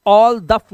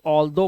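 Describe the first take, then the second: First: All दफ, loud, ending in f; wrong reading. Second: All दो, low, ending in open o; correct reading. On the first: Teacher showing how not to read it, wrong f-ending. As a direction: hit "all दफ" hard with a duff ending. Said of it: "all दफ नहीं पढ़ते". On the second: Teacher correcting the misreading for learners, open o ending. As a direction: say "all दो" with no f, like doe. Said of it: "इसे all दो पढ़ते हैं". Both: Shown as a demonstration.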